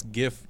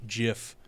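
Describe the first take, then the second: First: Said in the usual way. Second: Gif said "jiff"; soft g at the start of gif; soft g pronunciation. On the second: Shown as a demonstration. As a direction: say gif with a j sound. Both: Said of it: "some people s-, pronounce gif gif".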